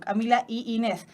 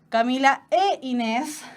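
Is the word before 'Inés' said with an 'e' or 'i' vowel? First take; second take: i; e. First: The linking word is an 'i' vowel. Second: The linking word is an 'e' vowel. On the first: The speaker calls it wrong. "incluso cuesta decirlo" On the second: The speaker calls it right. "esa I se transformaría en una E"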